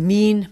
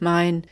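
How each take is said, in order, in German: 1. Der Vokal ist ein einfaches langes 'ee'. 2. Der Vokal ist der Diphthong 'ai'.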